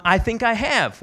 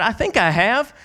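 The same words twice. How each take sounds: First: Lightly imitated Southern woman; southern accent. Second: Said in the usual way. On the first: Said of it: "with her southern accent". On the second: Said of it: "I said".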